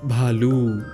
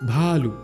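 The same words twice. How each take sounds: First: The final u vowel is long. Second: The final u vowel is short. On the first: The speaker calls it right. "तो ल में बड़े ऊ की मात्रा आई" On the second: The speaker calls it wrong. "भालू नहीं"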